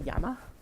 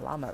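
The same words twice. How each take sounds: First: The word begins with a Y sound. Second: The word begins with an L sound. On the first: The speaker calls it right. "Shouldn't it be llama?" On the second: The speaker calls it wrong. "why do we pronounce llama llama then?"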